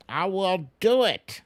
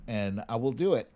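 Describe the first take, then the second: First: Louder and higher, DO punched hard; a gleeful, loud vow; emphatic repeat. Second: Said in the usual way. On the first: Real, not acted. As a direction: hit DO in "I will do it" loud and high.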